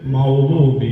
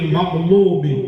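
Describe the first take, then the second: First: The throaty 'gh' sound is left out. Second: The throaty 'gh' sound is clearly pronounced. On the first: The speaker calls it wrong. "ഗൈന് പോയി" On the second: The speaker calls it right. "ഗൈരിൽ മഗ്ലൂബി എന്നോർത്ത്"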